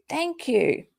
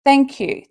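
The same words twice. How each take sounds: First: Said in the usual way. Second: Loud, bright showman's thanks; mock thank you. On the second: After her insult, she loudly thanks an imagined crowd. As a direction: take a bow for the crowd. Pretending to take applause.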